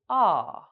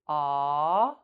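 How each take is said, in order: First: The pitch goes down. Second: The pitch goes up. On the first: "make the sounds go up and down like this" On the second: "make the sounds go up and down like this"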